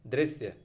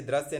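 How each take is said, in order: First: दृश्य said as drisya; correct dri syllable. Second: दृश्य said as drasya; wrong dra syllable. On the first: Teacher correcting students, दृश्य as drisya. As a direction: say दृश्य with i after dr. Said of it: "दृश्य में बदल रहा है". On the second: Teacher rejecting a form, दृश्य as drasya. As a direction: say दृश्य with a after dr. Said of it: "दृश्य नहीं". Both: Shown as a demonstration.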